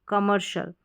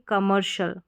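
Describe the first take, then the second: The two takes are said the same way.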